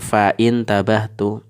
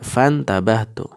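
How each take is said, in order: First: A glottal stop is pronounced before the second part. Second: The words run together with no glottal stop. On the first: The speaker calls it wrong. "bukan fa'in tabahtu" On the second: The speaker calls it right. "Jadi tidak dibaca"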